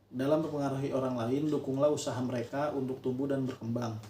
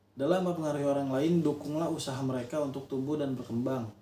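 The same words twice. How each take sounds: The two takes are said the same way.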